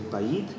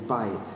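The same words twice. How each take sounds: First: The stress is on the last syllable. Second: The stress is on the first syllable. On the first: The speaker calls it wrong. "We don't say bayit" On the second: The speaker calls it right. "we say bayit"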